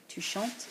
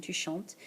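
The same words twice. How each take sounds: First: Tu chantes with a rise on chantes; question tune. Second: Tu chantes said flat, falling at the end; statement tune. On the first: Teacher modelling the question rise. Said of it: "change our intonation and say tu chantes". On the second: Teacher modelling a statement with a falling end. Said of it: "notice it has a period at the end". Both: Shown as a demonstration.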